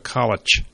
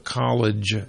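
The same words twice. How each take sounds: First: It is said with a Philadelphia accent pronunciation. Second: It is said with a standard American pronunciation. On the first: The speaker calls it right. "in Philadelphia, You go to" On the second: The speaker calls it wrong. "you don't go to"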